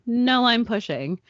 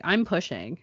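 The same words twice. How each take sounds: First: "No, I'm pushing" said higher and louder, leaning hard on "No"; insistent repeat. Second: Said in the usual way. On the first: Retold or imitated. Mother insisting to the doubting nurse, louder with a hard "No". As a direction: push back firmly with a stressed "No". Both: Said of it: "No, you're not".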